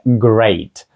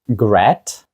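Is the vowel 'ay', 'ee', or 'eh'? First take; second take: ay; eh. First: The vowel is an 'ay' sound. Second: The vowel is a short 'eh' sound. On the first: The speaker calls it right. "це great ... звук Ей" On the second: The speaker calls it wrong. "Greet? Gret? Ні"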